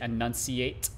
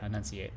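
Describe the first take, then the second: First: Every sound of the word is clearly pronounced. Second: The hard sounds are rolled together and softened. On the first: "If you say it properly, you would say enunciate" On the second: "you kind of roll most of the hard sounds together"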